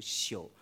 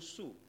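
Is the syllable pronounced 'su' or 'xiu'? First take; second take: xiu; su. First: The syllable begins with an x sound, 'xiu'. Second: The syllable begins with an s sound, 'su'. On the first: This is the dictionary reading. The speaker calls it right. "其实在字典里面应该读宿" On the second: This is how southerners commonly say it. The speaker calls it wrong. "南方人都读星宿"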